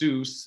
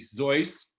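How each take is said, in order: First: The name is pronounced in an English way. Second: The name is pronounced in a German way. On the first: The speaker calls it wrong. "I'm also going to mispronounce it as Seuss" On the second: The speaker calls it right. "in the good German manner, it's actually Zeus"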